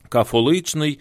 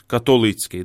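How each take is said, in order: First: The middle consonant is pronounced as f. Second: The middle consonant is pronounced as t. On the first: This is the eastern reading of the Greek letter. "його можуть читати як фе" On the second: This is the western reading of the Greek letter. "то його читають як «те»"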